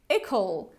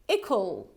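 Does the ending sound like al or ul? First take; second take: ul; ul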